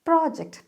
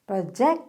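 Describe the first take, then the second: First: The stress is on the first syllable. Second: The stress is on the second syllable. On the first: The speaker calls it right. "Pro എന്നാണ് ആ stress കൊടുക്കുക" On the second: The speaker calls it wrong. "Project എന്ന് പറയരുത്"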